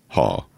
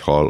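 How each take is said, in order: First: Final l dropped, said with a falling pitch. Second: Said plainly, with the final l.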